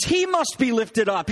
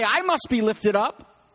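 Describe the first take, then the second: First: "He" hit first, then slow; slow, high line led by a strong "He"; stress on He. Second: "I" set off at the start, then slow; slow, high line led by a strong "I"; stress on I. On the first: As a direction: punch the opening "He" to mark the third person. Contrasts He with I. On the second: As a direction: punch the opening "I" as the wording not used. Contrasts I with He. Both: Shown as a demonstration.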